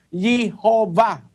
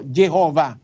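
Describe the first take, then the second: First: "Jehovah" opened with Y, as yee-HO-vah; Jehovah with a Y sound. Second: "Jehovah" opened with a hard English J; Jehovah with a J sound. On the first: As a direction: say "Jehovah" starting yee, not jee. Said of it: "kaya lumitaw yung pangalang". (bigkasing "Jehovah" na Y ang simula, "yihova") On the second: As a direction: say "Jehovah" as jeh-HO-vah, not yeh. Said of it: "pinalitan nila yung Y into J". (bigkasing "Jehovah" na J ang simula, "dyehova") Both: Shown as a demonstration.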